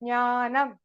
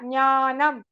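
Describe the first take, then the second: First: The word begins with a nasal ny sound. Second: The word begins with a nasal ny sound.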